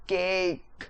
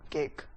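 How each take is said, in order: First: केक with the vowel held long; stretched stress. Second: Said in the usual way. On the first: Shown as a demonstration. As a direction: let केक hang in the air. (केक को लंबा खींचकर बोलें) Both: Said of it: "केक एकदम से नहीं".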